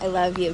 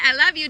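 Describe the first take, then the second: First: Said in the usual way. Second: Called out louder and higher; calling out. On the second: Real, not acted. Mom calling goodbye to kids at the bus, loud. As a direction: call it after them as they leave.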